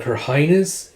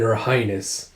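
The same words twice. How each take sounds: First: "Her highness?" rising at the end; acted query on "Her highness?"; questioning echo. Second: Said in the usual way. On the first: King echoes title as question.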